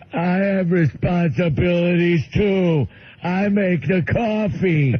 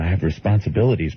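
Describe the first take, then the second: First: Slow, high simple-man voice; Bill. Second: Said in the usual way. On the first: Retold or imitated. Bill answering his departing friend, slow high proud caricature. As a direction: stretch it out with indignant pride. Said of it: "And Bill goes". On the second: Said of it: "And he said".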